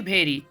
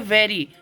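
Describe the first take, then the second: First: The word begins with an aspirated bh sound. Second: The word begins with a clear v sound. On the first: The speaker calls it wrong. "ना कि वेरी। भेरी बोलना ... अजीब लगता है" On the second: The speaker calls it right. "आप बोलेंगे वेरी"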